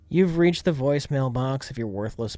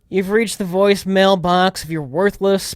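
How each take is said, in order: First: It is said in a sleepier voice. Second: It is said in a more alert voice.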